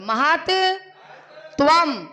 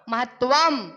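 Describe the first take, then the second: First: The word is split into two separate parts. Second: The word is said as one unbroken piece.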